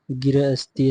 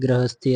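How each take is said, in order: First: गिरहस्थी, first syllable split as gi-ra; wrong form गिरहस्थी. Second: गृहस्थी, opening on one joined gri/gra sound; correct form गृहस्थी. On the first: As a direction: say गिरहस्थी with an extra i after g. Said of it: "ऐसे नहीं". (गिरहस्थी, 'गि-र' अलग करके गलत उच्चारण) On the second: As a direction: say गृहस्थी with the gr run together. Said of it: "ऐसे होता है". (गृहस्थी, 'गृ' मिलाकर सही उच्चारण) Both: Shown as a demonstration.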